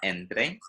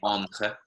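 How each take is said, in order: First: The word is pronounced with Spanish sounds. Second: The word is pronounced with French sounds. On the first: The speaker calls it right. "make sure you get the pronunciation there, entre, correct" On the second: The speaker calls it wrong. "we often have French speakers saying entre"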